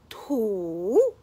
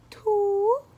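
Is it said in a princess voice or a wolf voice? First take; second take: wolf; princess. First: It is said in a big bad wolf's voice. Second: It is said in a princess voice.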